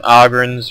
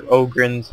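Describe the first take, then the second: First: Ogrins with an open "ah" first vowel; first pronunciation. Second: Ogrins with a long "oh" first vowel; alternative pronunciation. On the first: Game caster offering one way to say Ogrins, open first vowel. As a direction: say Ogrins as "AH-grins". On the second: Game caster offering the other way to say Ogrins, long O. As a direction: say Ogrins as "OH-grins". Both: Shown as a demonstration. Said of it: "however which way you want to pronounce it".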